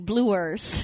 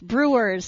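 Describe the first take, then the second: First: The word is said with an L sound instead. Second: The word is said with a clear R sound. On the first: The speaker calls it wrong. "He would say the Milwaukee Bluers" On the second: The speaker calls it right. "couldn't pronounce brewers"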